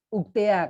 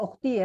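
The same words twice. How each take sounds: First: "Uktea" ending in te-a instead of ti; "Uktea", final vowel opened out to "ea"; slangy pronunciation. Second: Said in the usual way. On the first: Shown as a demonstration. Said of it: "Kalau sekarang Uktea". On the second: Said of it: "kalau anak rohis manggilnya".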